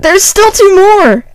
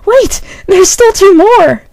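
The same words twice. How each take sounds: First: Put-on high, slow boyish squeak; a Spike-like voice. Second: High, slow, matter-of-fact squeak; stating the obvious. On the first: Pony warning of more dogs, high boyish squeak. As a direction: pitch it way up like a young boy. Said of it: "That sounded like Spike". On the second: Pony pointing out the remaining dogs, high and matter-of-fact. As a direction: state it like it's obvious, pitched way up. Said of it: "Ellie stated obviously". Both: A narrator's reading.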